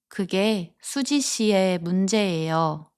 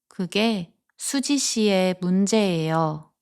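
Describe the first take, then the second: Both takes have the same delivery.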